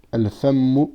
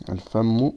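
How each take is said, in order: First: "Al-fammu" with the double "mm" held long for the shidda; doubled m. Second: Said in the usual way. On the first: Shown as a demonstration. Teacher showing students the shidda in "Al-fammu". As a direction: lean on the "mm" in "Al-fammu". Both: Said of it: "il y a une shidda".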